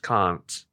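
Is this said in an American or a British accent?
British. It is said with a British-style vowel. "and we say aunt, can't"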